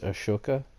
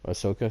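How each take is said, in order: First: The name is said with an Indian pronunciation. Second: The name is said with an English pronunciation. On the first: The speaker calls it wrong. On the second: The speaker calls it right.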